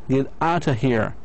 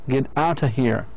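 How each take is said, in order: The two takes are said the same way.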